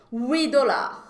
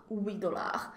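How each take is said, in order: First: Huit dollars louder, huit with no t; careful pronunciation. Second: Huit dollars softer, huit with no t; soft repeat. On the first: Teacher drilling students on huit, louder. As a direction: say Huit dollars firmly, drop the t. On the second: Teacher quietly repeats drill for students. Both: Shown as a demonstration. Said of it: "Então, atenção".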